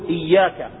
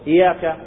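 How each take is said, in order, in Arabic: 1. صوت 'y' مشدد ويُطال النطق به. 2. صوت 'y' مفرد وقصير. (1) "فيقول إياك" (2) "ما يقول إياك، لأن إياك أي نعبد ضوء الشمس"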